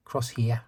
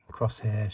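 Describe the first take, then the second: First: New Zealand "Crosshair", ending like "hee-ya"; New Zealand accent. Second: Said in the usual way. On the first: Retold or imitated. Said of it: "New Zealand accent". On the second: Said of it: "she calls".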